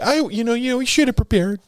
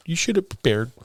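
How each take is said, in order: First: Much higher, fast nagging mom voice; high-pitched mock mom lecturing; impersonating mom. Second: Quieter mom voice, pitch dropping back; softer tail of the mom impression; impersonating mom. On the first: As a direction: scold like a fussy mother, pitched way up. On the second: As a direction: settle the scolding down a notch. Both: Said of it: "that was the impersonation of my mom".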